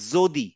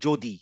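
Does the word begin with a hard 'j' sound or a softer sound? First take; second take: softer; hard j. First: The first consonant is not a hard 'j' sound. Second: The first consonant is a hard 'j' sound. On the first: The speaker calls it right. "আমাদের বলার কথা ছিল যদি" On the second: The speaker calls it wrong. "বলার সময় বলি হচ্ছে যদি। That is wrong"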